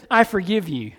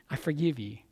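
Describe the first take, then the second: First: Said in the usual way. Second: "I forgive you" dropped low and much softer; soft echo. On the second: Retold or imitated. Pastor echoing Jesus's words to the congregation, hushed. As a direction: let the repeat fall away quietly. Jesus quoted, echoed softly.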